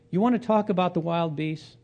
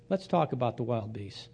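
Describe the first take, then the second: First: Higher, challenging question. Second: Softer, dry acceptance of the challenge; dry retort. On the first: Job answers his friend's donkey insult, challenging question. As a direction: throw it back as a challenge. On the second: Job takes on his friend's argument, dry retort. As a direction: drop it quietly, taking up the challenge. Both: Retold or imitated.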